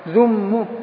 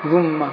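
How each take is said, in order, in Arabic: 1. تنتهي الكلمة بضمة قصيرة. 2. تنتهي الكلمة بفتحة قصيرة. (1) "الآن رواية الضم للإتباع" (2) "رواية الفتح ذم"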